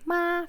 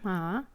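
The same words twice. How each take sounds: First: The pitch stays high and level. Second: The pitch rises from middle to high. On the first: "flat tone" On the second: "second tone"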